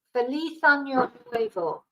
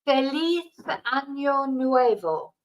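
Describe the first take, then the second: First: "Feliz Año Nuevo" repeated at normal pace in Spanish; quicker repeat of "Feliz Año Nuevo"; Spanish pronunciation. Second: "Feliz Año Nuevo" said slowly in Spanish, z as th; slow careful Spanish "Feliz Año Nuevo"; Spanish pronunciation. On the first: Repeating greeting for viewers, natural Spanish. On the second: Teaching viewers New Year greeting, careful Spanish. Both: Shown as a demonstration. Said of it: "we say".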